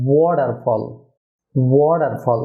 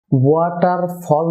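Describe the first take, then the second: First: "ওয়াটারফল" as WO-dar-fol, D for T; correct pronunciation. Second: "ওয়াটারফল" as wa-tar-fol, hard T; common mispronunciation. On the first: Teacher models the correction, "ওয়াটারফল" as WO-dar-fol. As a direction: round the "wo" and soften T in "ওয়াটারফল". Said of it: "ওয়া না হয়ে হবে". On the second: Teacher shows viewers the mistake, "ওয়াটারফল" as wa-tar-fol. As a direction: say "ওয়াটারফল" slowly with "wa" and T. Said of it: "না হয়ে হবে". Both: Shown as a demonstration.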